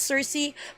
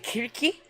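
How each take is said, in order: First: The name begins with an S sound. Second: The name begins with a K sound. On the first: This is the common way people say it. The speaker calls it wrong. "commonly pronounced as Cersei" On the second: This is the original way to say it. The speaker calls it right. "but it's actually Kirki"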